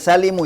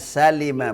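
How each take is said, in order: First: The word ends with a 'u' vowel. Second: The word ends with an 'a' vowel. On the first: The speaker calls it wrong. "Bukan salimu ya" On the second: The speaker calls it right. "Wa huwa ma salima"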